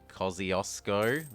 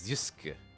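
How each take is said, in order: First: It uses the local English-style pronunciation. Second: It uses a pronunciation closer to Polish. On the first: The speaker calls it wrong. "which is how we would normally say it here" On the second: The speaker calls it right. "It's Kosciuszko. Or something closer to that"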